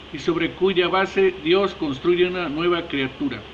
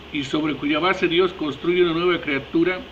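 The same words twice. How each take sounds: No difference in how they are said.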